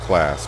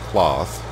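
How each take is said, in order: First: It sounds like the English word 'class'. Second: It sounds different from the English word 'class'. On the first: This is how the speaker usually says it. "I always pronounce it class" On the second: This is how a farmer said it. "a farmer, actually pronounce it Claas"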